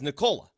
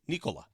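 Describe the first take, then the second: First: The name is said the anglicized way. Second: The name is said the native way. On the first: This is the version used to avoid offending English speakers. The speaker calls it wrong. "he's saying that because he doesn't want to offend you guys" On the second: This is the proper pronunciation of the name. The speaker calls it right. "how do you properly pronounce it? He said it's Nikola"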